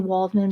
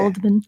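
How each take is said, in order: First: The name begins with an English W sound. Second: The name begins with a German V sound. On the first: The speaker calls it wrong. "we would bastardize it and say" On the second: The speaker calls it right. "but they pronounce it"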